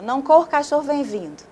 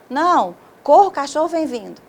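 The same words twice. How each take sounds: First: No pause comes right after "não". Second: A pause comes right after "não".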